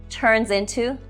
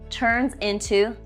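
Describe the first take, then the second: No difference in how they are said.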